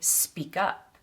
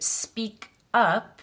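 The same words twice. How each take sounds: First: The k sound links into the next vowel. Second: The two words are said separately. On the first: The speaker calls it right. "we'd say speak up. We link the K and the U sounds" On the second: The speaker calls it wrong. "we wouldn't say speak up"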